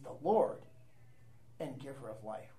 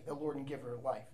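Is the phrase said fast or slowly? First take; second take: slowly; fast. First: The phrase is said slowly. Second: The phrase is said quickly. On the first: Its meaning is taken to heart. The speaker calls it right. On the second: It is recited by rote without thought. The speaker calls it wrong.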